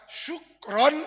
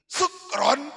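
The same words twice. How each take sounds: First: The word begins with an sh sound. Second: The word begins with a plain s sound. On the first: It means thank you. The speaker calls it right. "syukron dengan shin itu terima kasih" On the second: It means drunk people. The speaker calls it wrong. "kalau dengan sin kecil, syukron mabuk"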